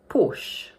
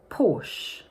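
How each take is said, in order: First: The word is said with one syllable. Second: The same.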